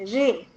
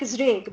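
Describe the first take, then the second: First: The word starts with an r sound. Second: The word starts with a z sound. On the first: This is how the name is actually said. The speaker calls it right. "but it is pronounced as Ray" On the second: This is how the spelling reads. The speaker calls it wrong. "it reads like Zreg"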